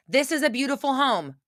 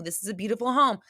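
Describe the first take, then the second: First: Higher, chanted affirmation. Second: Said in the usual way. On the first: Shown as a demonstration. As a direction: say it like a mantra. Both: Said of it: "How do you think this is a beautiful home".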